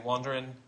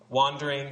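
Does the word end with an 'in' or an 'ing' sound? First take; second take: in; ing. First: The ending is a clipped 'in' sound. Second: The ending is a full 'ing' sound. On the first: "you say wandering" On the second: "if it says"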